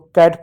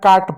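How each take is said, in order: First: The vowel is a front 'ae' sound. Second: The vowel is a long open 'ah' sound. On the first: The speaker calls it right. "कैट पढ़ते हो" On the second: The speaker calls it wrong. "सुनने में आपको अजीब लग रहा है"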